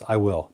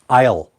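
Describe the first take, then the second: First: It is said as two full separate words. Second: It is said as one contracted syllable. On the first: The speaker calls it wrong. "Don't say this, That sounds like a beginner" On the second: The speaker calls it right. "So you have to pronounce it"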